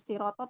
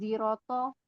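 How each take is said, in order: First: The word begins with an s sound. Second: The word begins with a z sound. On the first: "bukan siroto" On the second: "ada juga yang pakai jim. Jadi uh, bukan siroto tapi ziroto"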